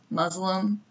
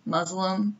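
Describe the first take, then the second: First: The middle consonant is a buzzing z sound. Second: The middle consonant is a buzzing z sound.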